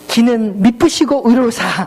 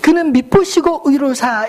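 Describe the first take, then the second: First: The first word begins with the vowel 'i'. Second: The first word begins with the vowel 'eu'. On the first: The speaker calls it wrong. "이렇게 발음했다가 저희 아내에게 요즘도 가끔" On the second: The speaker calls it right. "이렇게 발음해야 될 걸"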